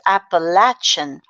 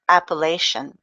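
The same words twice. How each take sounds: First: The word is said the southern regional way. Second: The word is said the northern regional way. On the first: "The southern pronunciation is Appalachian" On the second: "the northern pronunciation is Appalachian"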